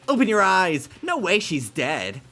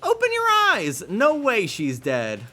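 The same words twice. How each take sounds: First: It is said in the reader's normal voice. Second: It is said in a Monokuma character voice.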